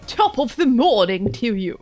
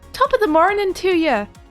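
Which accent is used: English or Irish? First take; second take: English; Irish. First: It is said in an exaggerated English accent. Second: It is said in an attempted Irish accent. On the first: "really exaggerated English accents instead" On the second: "I just tried to do that. That was my attempt"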